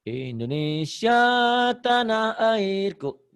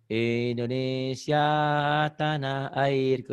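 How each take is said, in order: First: It is said boldly with strong rhythmic emphasis. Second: It is said timidly with weak rhythmic emphasis. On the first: The speaker calls it right. "Seperti gini" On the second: The speaker calls it wrong. "Kamu masih gini. ... Beatnya kurang ini"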